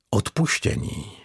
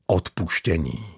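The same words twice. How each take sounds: First: Whispered. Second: Said in the usual way. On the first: A narrator's reading. Brooding on a word.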